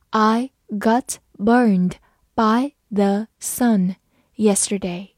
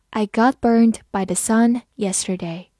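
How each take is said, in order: First: Very slow, word by word; slow reading. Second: Said in the usual way. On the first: Shown as a demonstration. Teacher modelling for students, very slow and clear. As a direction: read it slowly so they can repeat. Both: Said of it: "好，慢慢来读。".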